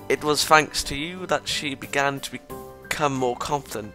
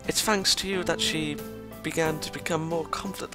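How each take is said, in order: First: It is said in his normal voice. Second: It is said in a put-on character voice.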